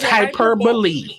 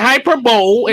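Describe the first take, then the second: First: It ends with a 'lee' sound. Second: It ends with a 'bowl' sound. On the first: The speaker calls it right. "it's hyperbole" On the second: The speaker calls it wrong. "You say hyperbole"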